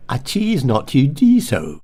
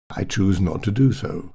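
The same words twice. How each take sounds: First: Slow modern posh, "choose" as "cheese"; exaggerated posh, "do" said as "dee"; modern posh vowels. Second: Said in the usual way. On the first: Shown as a demonstration. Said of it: "Choose has become cheese".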